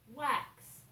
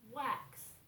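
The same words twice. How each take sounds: First: Wax repeated much louder with disgust; wax, punched out loud in disgust; emphatic wax. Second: Said in the usual way. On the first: Real, not acted. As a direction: hit the second wax hard and loud.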